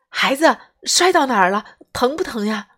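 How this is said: It sounds worried and urgent. The mother is worried about her hurt child. The speaker calls it right. "是很担心很着急的"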